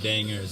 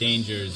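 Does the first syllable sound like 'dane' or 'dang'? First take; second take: dang; dane. First: The first syllable sounds like 'dang'. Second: The first syllable sounds like 'dane'. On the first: It names members of the Dang Nation. "but pronounced like dangers" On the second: It is the ordinary word for threats. "Spelled like dangers"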